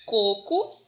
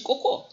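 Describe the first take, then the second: First: Coco said with the first syllable stressed, CO-co. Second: Cocô said with the final syllable stressed and higher, co-CÔ; cocô with a stressed open final syllable; stress on last syllable. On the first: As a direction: read coco with the weight on the first syllable, loud. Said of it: "que não tem acento". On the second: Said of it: "que tem acento". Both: Shown as a demonstration.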